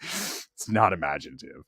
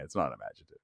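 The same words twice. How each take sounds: First: "not" pressed down low and soft; a low, quiet correction with "not" stressed. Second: "not" stressed, much lower and softer; low, soft mutter to himself; low muttered repeat. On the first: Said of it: "Is Jeff in the chat?". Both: Real, not acted.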